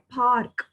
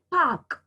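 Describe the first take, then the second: First: "park" with the r sounded before k; American-style "park" with an audible r; American pronunciation. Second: "park" as pahk, no r; British-style "park" with the r dropped; British pronunciation. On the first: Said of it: "you will say park in American". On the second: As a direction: say "park" the British way, long ah and silent r. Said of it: "park in British". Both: Shown as a demonstration.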